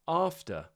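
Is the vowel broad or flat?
broad. The vowel is a long, broad ah sound.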